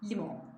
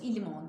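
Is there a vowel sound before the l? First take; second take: no; yes. First: The word starts directly with the l. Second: An extra vowel comes before the l. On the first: The speaker calls it right. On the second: The speaker calls it wrong.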